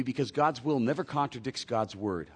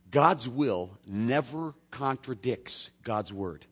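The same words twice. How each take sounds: First: Said in the usual way. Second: "God's will never contradicts God's word" said slow, word by word; slow it right down so they can write it down; slow emphatic repeat. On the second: Shown as a demonstration. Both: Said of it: "I'll say that again for you".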